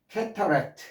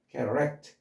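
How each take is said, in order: First: The middle consonant is a clear t sound. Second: The middle consonant is a quick r-like flap. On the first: The speaker calls it wrong. "캐터가 아니라" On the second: The speaker calls it right. "실제 발음은 캐러 ... T나 D를 르 발음을 하는 거죠"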